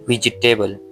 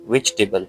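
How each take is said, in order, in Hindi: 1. j के बाद एक स्वर बोला जाता है। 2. j के बाद कोई स्वर नहीं बोला जाता। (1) "जो कि बिल्कुल भी गलत है" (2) "वेजिटेबल में हमने क्या ई को साइलेंट कर दिया"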